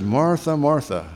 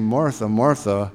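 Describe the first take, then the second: First: "Martha, Martha" called out higher, then falling; pitched-up double call of "Martha"; emphatic repeat. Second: "Martha, Martha" drawn out slowly and evenly; slow, deliberate double "Martha"; slow emphatic repeat. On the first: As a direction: raise the pitch on the first "Martha", let the second drop. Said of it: "it's for emphasis". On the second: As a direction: lean on each "Martha" slowly, weighty and level. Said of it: "putting extra emphasis on it". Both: Retold or imitated.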